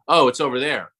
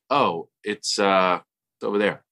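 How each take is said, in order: First: It is said smoothly without hesitation. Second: It is said with hesitant pauses and restarts.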